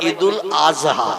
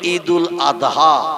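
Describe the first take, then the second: First: The last word has a z-like sound. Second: The last word has a d-like sound. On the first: The speaker calls it wrong. "ওরা বলে ঈদুল আজহা... জয় অক্ষর উচ্চারণের মতো আওয়াজ করে বলে" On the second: The speaker calls it right. "আমরা বলি ঈদুল আদহা"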